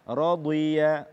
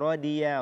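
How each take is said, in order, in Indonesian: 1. Huruf tengah itu bunyi dhad yang tebal. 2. Huruf tengah itu bunyi d biasa.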